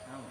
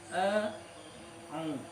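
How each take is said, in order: First: The vowels run together with no throat consonant. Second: A throat consonant separates the two vowels. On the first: The speaker calls it wrong. "Au ini keliru" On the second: The speaker calls it right. "yang benar adalah"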